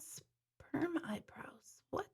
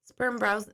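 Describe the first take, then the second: First: Breathy, slow whisper of a viewer's comment; hushed and drawn-out, barely voiced. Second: Said in the usual way. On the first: Real, not acted. Host reading a shocking comment to her viewers, whispered slowly.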